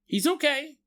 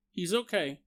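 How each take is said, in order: First: Gnome reassuring. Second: Said in the usual way. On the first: Retold or imitated.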